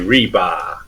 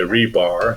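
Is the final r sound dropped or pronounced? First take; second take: dropped; pronounced. First: The word ends in an open ah, no r. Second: The word ends with a clear r sound. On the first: "If you go to Boston, Massachusetts, they say reba" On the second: "they don't say rebar"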